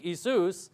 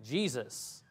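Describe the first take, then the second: First: "Jesus" said as "ee-SOOS"; no J in "Jesus", long ee then SOOS; Greek pronunciation. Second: "Jesus" said as "JEE-zus", low and soft; hard J, stressed first syllable in "Jesus"; English pronunciation. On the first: Preacher tracing the translation, "Jesus" in Greek, ee-SOOS. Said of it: "take the Greek". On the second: Preacher answering the translation question, "Jesus" the English way, JEE-zus. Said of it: "change it into English". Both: Shown as a demonstration.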